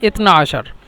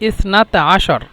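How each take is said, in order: First: It is said in Egyptian Arabic pronunciation. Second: It is said in Standard Arabic pronunciation. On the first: "মিশরে ... এই জন্য ওরা বলে" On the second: "শুদ্ধ ভাষা ইসনাতা আশার"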